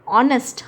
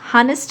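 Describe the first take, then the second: First: The word starts with a vowel, no h. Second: The word starts with an h sound. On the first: The speaker calls it right. "लेकिन हम बोलते हैं ऑनेस्ट" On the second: The speaker calls it wrong. "हानेस्ट नहीं बोलते"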